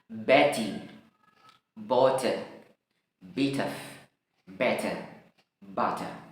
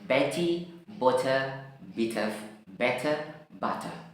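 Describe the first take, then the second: First: The words are said slowly. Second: The words are said a bit faster. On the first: "Ini dalam uh, slow motion ya, dalam bentuk pelan ya" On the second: "faster, agak lebih cepat lagi"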